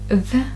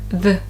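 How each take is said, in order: First: The vowel is said full and clear. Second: The vowel is reduced and weak.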